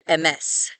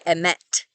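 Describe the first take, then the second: First: It ends with an s sound, Ashkenazi style. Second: It ends with a t sound, Sephardi style.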